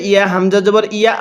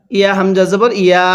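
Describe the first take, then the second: No difference in how they are said.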